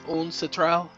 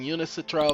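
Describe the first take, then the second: First: No extra vowel follows 'Un' in the word. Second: An extra vowel follows 'Un' in the word. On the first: The speaker calls it right. "but it's Uncitral" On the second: The speaker calls it wrong. "I keep saying Unicitral because I'm so used to saying it that way"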